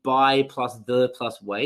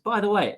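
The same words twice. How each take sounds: First: By, plus, the, plus, way, each word split apart; chopped into single words like a bad lesson. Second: Said in the usual way. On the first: Shown as a demonstration. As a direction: break "by the way" into separate words with pauses. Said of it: "you wouldn't teach it like". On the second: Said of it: "It's just".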